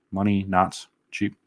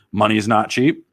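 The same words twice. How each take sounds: First: MONEY and CHEAP slowly spaced out; "Money not cheap" drawn out slowly; slow pondering repeat. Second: Said in the usual way. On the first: Real, not acted. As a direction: mull over "Money not cheap", word by word. Repeats the comment, mulling it over.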